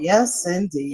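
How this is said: It sounds disappointed.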